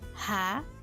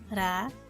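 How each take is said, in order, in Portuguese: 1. O R é pronunciado como um som forte e áspero. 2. O R é pronunciado como um som fraco e leve. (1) "Corte de R é quando o som é dito dessa maneira" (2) "Se o som for fraco, eu digo"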